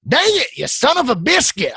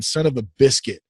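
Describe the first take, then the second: First: High, exasperated mock curse; a playful near-swear, pitched up; mock cursing. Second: Said in the usual way. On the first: Real, not acted. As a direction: cuss yourself out comically. Frustrated, forgot something. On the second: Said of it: "I got [name] saying".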